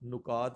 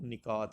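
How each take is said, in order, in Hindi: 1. पहले अक्षर में u स्वर है। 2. पहले अक्षर में i स्वर है। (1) "नुकात नहीं होता" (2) "इसका जो दुरुस्त ऑप्शन है वो निकात होता है"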